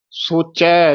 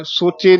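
First: ਸੋਚੈ ending in an open ai; dulavan. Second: ਸੋਚੇ ending in a close e; wrong vowel. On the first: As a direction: open the last vowel of ਸੋਚੈ. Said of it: "ਚੱਚੇ ਦੀਆਂ ਦਲਾਵਾਂ". (ਸੋਚੈ ਦੁਲਾਵਾਂ ਨਾਲ) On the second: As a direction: wrongly end it as soche in ਸੋਚੇ. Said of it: "ਨਹੀਂ ਕਹਿਣਾ". (ਸੋਚੇ ਇੱਕ ਲਾਂ ਨਾਲ) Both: Shown as a demonstration.

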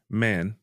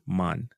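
First: "man" with a flat a as in cat; North American man. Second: "man" with an open ah, drawn out; Jamaican man. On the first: Teacher contrasting American "man" with Jamaican. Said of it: "Just like in North America". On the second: Teacher showing the Jamaican way to say man. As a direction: say "man" as "mahn", broad and long. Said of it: "R A is more of an ah". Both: Shown as a demonstration.

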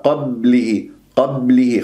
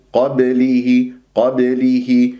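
First: قبله with the ba held, no bounce; wrong, held ba. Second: قبله with a quick ba bounce; correct qalqala. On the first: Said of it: "خطأ". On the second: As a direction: strike and release the ba in قبله. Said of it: "كسرة اللام والهاء". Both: Shown as a demonstration.

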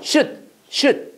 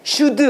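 First: Should를 '슛'처럼 짧게 끊어서; should 끝 d를 터뜨리지 않고 받침으로. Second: Should를 '슈드으'로 늘여서; should 끝 d에 '으' 모음을 붙여 길게; 잘못된 발음. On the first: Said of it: "어떻게 읽어야 돼?". (should, 한 음절로 짧게 '슛') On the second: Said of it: "이렇게 읽지 마". (should, 한국식 두 음절 '슈-드') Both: Shown as a demonstration.

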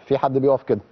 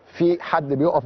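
First: Said in the usual way. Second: Slow demonstration. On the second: Shown as a demonstration. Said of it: "بص، في حد بيقف".

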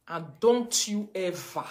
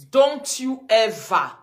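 First: Slow, drawn out don't you ever; warning the fans, slow and pointed stress. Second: Don't you ever, louder and higher, stretched slow; emphatic repeat. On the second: Live-streamer warning fans, loud slow stress. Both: Shown as a demonstration.

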